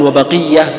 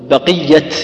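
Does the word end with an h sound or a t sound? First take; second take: h; t. First: The word ends with an h sound. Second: The word ends with a t sound. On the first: The word is written with a tied ta. "لأنها مربوطة" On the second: The word is written with an open ta. "لأنها رسمت مفتوحة"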